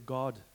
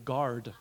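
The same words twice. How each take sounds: First: Guard is said in a South African accent. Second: Guard is said in a non-South African accent. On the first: "We say guard" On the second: "We don't say guard"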